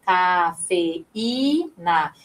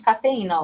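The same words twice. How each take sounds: First: Cafeína said very slowly, ca-fe-í-na with a strong í; slow syllable split. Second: Said in the usual way. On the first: Shown as a demonstration. Teacher showing the hiatus in cafeína, very slow. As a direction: stretch cafeína so the í stands alone. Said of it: "Veja que o I". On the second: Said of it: "ó, cafeína".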